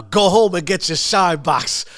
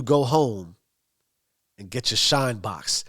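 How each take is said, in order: First: Higher, louder mocking order; loud taunt. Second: Understated taunt, trailing down low at the end; casual mocking jab. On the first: Bats baiting Tommy after one more toast, loudly taunting. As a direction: hurl the insult across the room. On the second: Bats teasing Tommy before the laughing bar, lightly mocking. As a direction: drop the insult lightly, as a joke. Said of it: "he mocks him a little bit".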